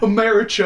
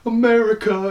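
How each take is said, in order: First: The word is pronounced in an odd, altered way. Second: The word is pronounced the normal way. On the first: The speaker calls it wrong. "And then he does it again" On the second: The speaker calls it right. "And I'm like, all right, whatever"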